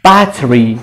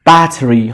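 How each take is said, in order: The two takes are said the same way.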